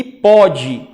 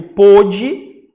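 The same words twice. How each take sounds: First: "pode": open the first O wide, as in "avó"; open-vowel "pode", clearly demonstrated. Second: "pôde": close the first O tightly, as in "avô"; closed-vowel "pôde", clearly demonstrated. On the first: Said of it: "pronúncia aberta". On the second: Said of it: "com acento com o O fechado". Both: Shown as a demonstration.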